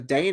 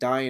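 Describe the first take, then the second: First: The name is one syllable, rhyming with rain. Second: The name has two syllables, like dying. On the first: This is the usual film pronunciation. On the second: This is the author's own pronunciation.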